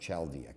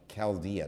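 First: The word begins with a CH sound. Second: The word begins with a K sound. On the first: The speaker calls it wrong. "not Chaldea" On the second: The speaker calls it right. "Like Chaldea"

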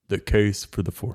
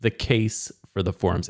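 First: It is said in a put-on announcer voice. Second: It is said in an ordinary speaking voice.

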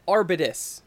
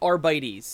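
First: The word ends with a 'tus' sound. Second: The word ends with a 'teez' sound. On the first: "I always said arbitus" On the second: "ends with T-E-S, and you pronounce it T's... So this must be Arbites"

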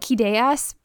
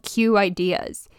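First: The name begins with a 'kid' sound. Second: The name begins with a 'cue' sound. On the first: This is how the speaker says it. "I call it Kideas" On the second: This is how some other people say it. "some people call it Q Ideas"

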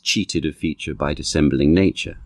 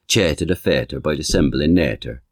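First: It is spoken in a modern received pronunciation accent. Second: It is spoken in a reconstructed original pronunciation accent. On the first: "in received pronunciation" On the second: "in original pronunciation, it goes"

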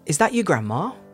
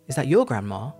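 First: The word grandma is stressed; your is weak. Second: The word your is stressed, in its strong form. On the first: There is only one old lady present. "So there you're using the weak form, because grandma is the important part" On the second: It singles out your grandma from other people's. "Because you're stressing your"

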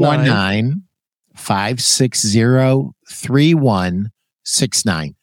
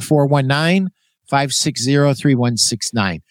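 First: The number is said slowly. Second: The number is said quickly.

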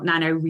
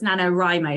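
First: The 'Wri' part sounds like 'ree'. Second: The 'Wri' part sounds like 'rye'. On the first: The speaker calls it wrong. "not NaNoWriMo" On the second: The speaker calls it right. "So writing, not reading. Which is why I was like, it's NaNoWriMo"

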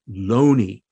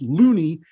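First: The first vowel is the 'o' of moan. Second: The first vowel is the 'oo' of moon. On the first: The name avoids sounding like the word for crazy. "it's Loney" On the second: The name sounds like the word for crazy. "not pronounced Looney"

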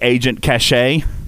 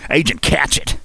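First: The name is said like 'cash-ay'. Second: The name is said like 'catch it'. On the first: The speaker calls it right. "It's supposed to be Agent Cachet" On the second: The speaker calls it wrong. "I like Catch it"

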